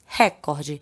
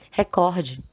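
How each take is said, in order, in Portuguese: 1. A sílaba tônica está na primeira. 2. A sílaba tônica está na segunda. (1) "A gente tem a mania de falar como se fosse uma proparoxítona" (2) "Ela é uma paroxítona"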